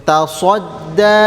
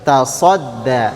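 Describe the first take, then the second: First: "Tasadda" with a rounded "so" on protruded lips; lips pushed forward. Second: "Tasadda" with a heavy S and lips not forward, lower; thick S, lips back. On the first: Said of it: "jangan dimajukan bibirnya". ("Tasadda" dengan bibir dimajukan) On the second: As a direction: thicken the middle of "Tasadda" without rounding the lips. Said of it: "bibirnya tidak maju". ("Tasadda" tebal, bibir tidak maju) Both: Shown as a demonstration.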